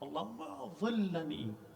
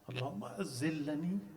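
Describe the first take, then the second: First: The z sound is a heavy emphatic dh. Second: The z sound is a plain z. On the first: Oh Allah, shade me. The speaker calls it right. "In Arabic, is with dha" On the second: Oh Allah, let me slip. The speaker calls it wrong. "with a za"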